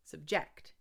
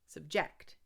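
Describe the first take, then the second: First: The stress is on the second syllable. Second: The same.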